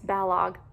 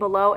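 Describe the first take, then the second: First: The name ends with a hard g sound. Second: The name ends in a vowel, like 'below'. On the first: The speaker calls it right. "and it's Balog" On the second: The speaker calls it wrong. "I keep saying Below"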